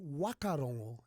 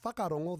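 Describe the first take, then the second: First: The word begins with a plain w sound. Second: The word begins with a wh sound. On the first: This is how west coast speakers say it. "the western coast. It'll be wakarongo" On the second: This is the general form of the word. "instead of saying whakarongo"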